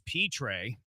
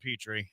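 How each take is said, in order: First: The name ends with a 'tray' sound. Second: The name ends with a 'tree' sound. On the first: This is the Cajun pronunciation a viewer insists on. "it's P-Tray. It's a Cajun last name" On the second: This is the pronunciation the hosts have always heard. "I've always heard Jalen Petrie"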